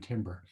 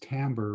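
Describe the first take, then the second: First: The word is given the physicists' pronunciation. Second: The word is given the musicians' pronunciation. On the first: "rather than timbre" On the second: "most musicians... pronounce it as timbre"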